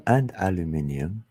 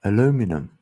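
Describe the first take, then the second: First: Aluminium in five syllables, al-yoo-MIN-ium; British-style aluminium. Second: Aluminum in four syllables, a-LOO-mi-num; American-style aluminum. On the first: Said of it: "instead of aluminium". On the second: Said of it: "what do they say". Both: Shown as a demonstration.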